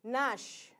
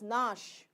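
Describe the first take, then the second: First: It starts directly with the N sound. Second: The same.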